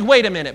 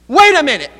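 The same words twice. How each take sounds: First: Said in the usual way. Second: Sudden, louder and higher alarmed halt; startled realization. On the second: Retold or imitated. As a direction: snap awake to the mix-up, loud and high. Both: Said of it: "That's a pretty big wait a minute".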